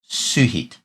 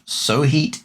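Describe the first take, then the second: First: The first vowel is an 'oo' sound. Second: The first vowel is not an 'oo' sound. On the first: The speaker calls it right. "this O slash character is pronounced as U" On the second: The speaker calls it wrong. "It is not Sohit"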